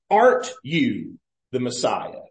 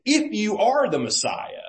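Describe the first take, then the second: First: "Aren't" set apart, then falling; "Aren't" punched as a question; stress on Aren't. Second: "If you are" pitched high; "If you are" lifted, falling after Messiah; conditional challenge. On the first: Preacher quoting the thief's different wording, stress on "Aren't". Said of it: "there is a little difference in the language". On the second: Preacher quoting everybody else's question, "If you are" raised. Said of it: "Everybody else has asked the question". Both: Retold or imitated.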